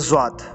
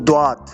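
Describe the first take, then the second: First: It starts with a z then w. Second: It starts with a plain d then w. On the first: "कुछ लोगों ने ज़्वात पढ़ते रहे हैं, हालांकि ये दोनों गलत हैं" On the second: "इसको कुछ लोगों ने द्वात"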